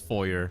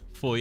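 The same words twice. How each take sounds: First: It is said the American way. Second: It is said the French way.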